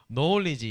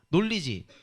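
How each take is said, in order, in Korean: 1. 영어 억양에 더 가까워요. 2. 한국어 억양이 많이 섞여 있어요. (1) "knowledge 이렇게 해야 되나요?" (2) "저 선생 발음이 너무 안 좋나?"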